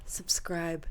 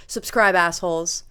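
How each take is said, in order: First: Said in the usual way. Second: Loud. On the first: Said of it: "repeated sign-off, quiet take". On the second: Acted. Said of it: "repeated sign-off, loud take".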